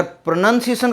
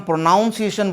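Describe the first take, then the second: First: Said in the usual way. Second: Second syllable of "प्रोनाउंसिएशन" said like the word "noun"; "प्रोनाउंसिएशन" with an "ow" sound instead of a short "nun"; mispronounced. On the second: Shown as a demonstration. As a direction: say "प्रोनाउंसिएशन" wrongly as pro-NOUN-see-ay-shun. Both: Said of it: "तो ये गलत होगा".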